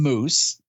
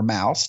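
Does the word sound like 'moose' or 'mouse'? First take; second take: moose; mouse. First: The vowel sounds like the one in 'moose'. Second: The vowel sounds like the one in 'mouse'. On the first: "most of us call it mousse" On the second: "I think Minnie would pronounce it mouse"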